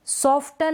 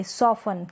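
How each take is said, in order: First: सॉफ्टन with t after f; T sounded. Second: सॉफन with no t; silent T. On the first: Teacher showing the misreading, सॉफ्टन with t sounded. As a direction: say सॉफ्टन as "sof-tan". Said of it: "नहीं पढ़ेंगे". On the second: Teacher explaining the silent T, सॉफन without t. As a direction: say सॉफन as "sof-an". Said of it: "टी silent है". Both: Shown as a demonstration.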